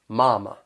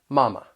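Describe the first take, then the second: First: The first syllable is drawn out, in a southern accent. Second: The first syllable is short, in a standard accent.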